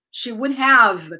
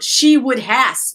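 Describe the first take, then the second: First: Said in the usual way. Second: She would has with has said full and slow; wrong form. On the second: Shown as a demonstration. Teacher showing the common mistake to avoid.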